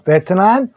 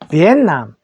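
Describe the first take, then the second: First: It is said as Korean 'beteunam', with a clear t. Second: It is said as English 'vee-en-nam', t not released. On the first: "우리가 베트남인데" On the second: "영어로는 발음이 조금 다릅니다"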